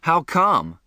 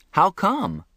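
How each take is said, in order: First: Startled, puzzled question. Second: Higher, more insistent question; puzzled. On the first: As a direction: ask it caught off guard. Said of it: "I was startled". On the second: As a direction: press the question again, baffled. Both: A narrator's reading.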